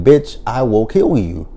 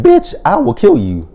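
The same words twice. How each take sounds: First: Mocking repeat. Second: Shrieked threat, much higher and louder; hammed-up high-pitched threat; high mock shriek. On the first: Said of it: "have we not learned our lesson from saying". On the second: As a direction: screech it like a crazed threat. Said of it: "She said".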